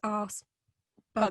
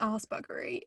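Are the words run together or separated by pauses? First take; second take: separated; run together. First: A clear pause separates the two words. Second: The words run together without a pause. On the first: The speaker calls it right. "as if there were commas in between" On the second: The speaker calls it wrong. "it wasn't arse buggery"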